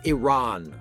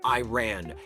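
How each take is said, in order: First: The first syllable sounds like 'ih', not 'eye'. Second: The first syllable sounds like 'eye', as in 'I ran'. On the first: The speaker calls it right. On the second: The speaker calls it wrong. "not Iran"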